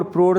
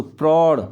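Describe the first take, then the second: First: प्रौढ़ said as "prorh", plain o; wrong vowel demo. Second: प्रौढ़ as "praurh", open au; correct vowel demo. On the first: Teacher showing the error, प्रौढ़ with plain o. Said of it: "प्रौढ़ नहीं होता बच्चों". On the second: Teacher correcting children, प्रौढ़ with open au. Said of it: "दो मात्रा आती है इसमें". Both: Shown as a demonstration.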